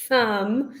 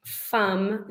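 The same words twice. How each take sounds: First: Said in the usual way. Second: "thumb" said as "fum", with an F sound for TH; child's error: "thumb" with F instead of TH; wrong TH. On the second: Shown as a demonstration. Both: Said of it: "saying thumb instead of thumb".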